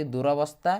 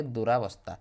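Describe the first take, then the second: First: ଦୁରବସ୍ଥା with a short vowel after ର; ଦୁରବସ୍ଥା, second syllable a short unlengthened ra; short vowel variant. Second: ଦୁରାବସ୍ଥା with a long aa after ର; ଦୁରାବସ୍ଥା, second syllable a clear long raa; long vowel variant. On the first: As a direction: say ଦୁରବସ୍ଥା, no long aa in the middle. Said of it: "ଏମିତି ଲେଖନ୍ତି". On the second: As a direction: say ଦୁରାବସ୍ଥା, opening the middle to raa. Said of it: "ଏମିତି ପିଲାମାନେ ଲେଖା ହୁଏ". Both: Shown as a demonstration.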